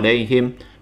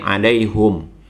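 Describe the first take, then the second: First: The word ends with the syllable him. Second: The word ends with the syllable hum. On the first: This is the common reading. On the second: This is another reciter's reading.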